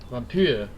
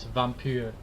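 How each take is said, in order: First: It is said with a French-style pronunciation. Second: It is said with an ordinary English pronunciation. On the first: The speaker calls it right. "it's a French game, so the proper pronunciation would be vampire" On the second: The speaker calls it wrong. "People just say vampire"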